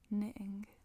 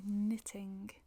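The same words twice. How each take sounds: First: The middle T is dropped, a glottal stop. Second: The middle T is pronounced clearly. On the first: This is how people in Manchester usually say it. "à Manchester, c'est plus probable qu'on dise" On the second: This is the formal way to say it. "Ça, c'est la façon formale de le dire"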